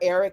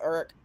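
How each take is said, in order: First: Every syllable of the word is pronounced. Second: The middle of the word is squeezed out. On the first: "Eric is never Eric" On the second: "we take out that middle um part of the word"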